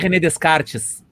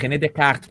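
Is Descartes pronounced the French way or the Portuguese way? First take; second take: Portuguese; French. First: The name is read like a Portuguese word. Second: The name is said with a French pronunciation. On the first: The speaker calls it wrong. "Não é René Descartes. Descartes é tu descartar a porra de uma carta" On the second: The speaker calls it right. "que é francês, o apelido, pra falar certo"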